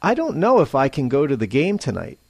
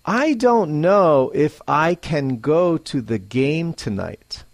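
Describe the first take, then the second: First: Fast "I don't know if I can go to the game tonight." with "can" reduced; reduced forms. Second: Slow, full "I don't know if I can go to the game tonight."; careful "I don't know if I can go to the game tonight."; slowly and clearly. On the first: Teacher models natural speech, fast and reduced. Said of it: "second, at a normal pace". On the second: Teacher models careful speech, slowly and clearly. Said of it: "First, slowly". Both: Shown as a demonstration.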